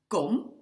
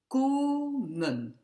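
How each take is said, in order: First: Kom with a quick, short O. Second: Komen with a long, drawn-out O. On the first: Teacher contrasting it with the long sound, kom with a short O. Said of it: "on entend bien que le O est court". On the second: Teacher showing students the long sound, komen with a long O. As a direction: stretch the O of komen high and held. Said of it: "On entend bien que le O est long". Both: Shown as a demonstration.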